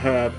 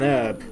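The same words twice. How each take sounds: First: The h sound at the start is heard. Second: The h sound at the start is silent. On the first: "I can't help but say a herb" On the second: "to not pronounce the H's"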